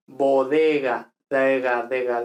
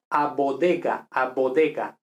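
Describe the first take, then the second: First: Bodega with soft d and g; soft Spanish bodega; soft Spanish consonants. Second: Bodega with firm b, d and g; Italian stop consonants; hard Italian stops. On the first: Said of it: "esto sería muy débil". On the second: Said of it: "Un italiano, esto lo leería". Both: Shown as a demonstration.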